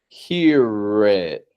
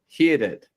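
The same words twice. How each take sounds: First: The R is flared with the lips pushed out. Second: The R is rolled. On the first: The speaker calls it right. "but flaring it" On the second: The speaker calls it wrong. "without rolling the R like a"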